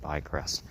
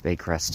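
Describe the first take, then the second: First: The first syllable sounds like 'by'. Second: The first syllable sounds like 'bay'. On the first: The speaker calls it wrong. "I think I pronounced it wrong in the video. I think I said Bycrest" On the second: The speaker calls it right. "But Baycrest"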